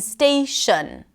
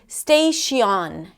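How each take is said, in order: First: The unstressed vowel is reduced to schwa. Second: The unstressed vowel is a full vowel. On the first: The speaker calls it right. "All had the same sound, the schwa sound" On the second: The speaker calls it wrong. "they pronounce the vowel sound that is associated with a vowel letter"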